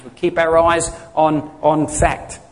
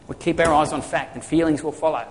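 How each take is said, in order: First: Each word set down slowly; slow emphasis. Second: Said in the usual way. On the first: Shown as a demonstration. Pastor drilling the point home to the congregation, slowly. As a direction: spell it out word by word.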